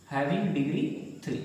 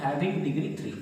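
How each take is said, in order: First: Very slow, each word drawn out for notes; slow teacher's dictation pace. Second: Said in the usual way. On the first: Shown as a demonstration. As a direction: spell it out slowly so the class can write.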